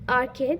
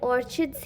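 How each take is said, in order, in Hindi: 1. बीच का व्यंजन कड़ी 'k' ध्वनि है। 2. बीच का व्यंजन 'ch' ध्वनि है।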